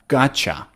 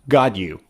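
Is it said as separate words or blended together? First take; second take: blended; separate. First: The words blend into one short form. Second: The two words are said separately and fully.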